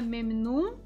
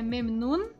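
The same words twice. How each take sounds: First: It ends in a nasal vowel like 'um'. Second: It ends in a clear tongue-tip n. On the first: The speaker calls it wrong. "não é memnun, um, com som de um" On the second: The speaker calls it right. "é memnun, memnun na ponta da língua"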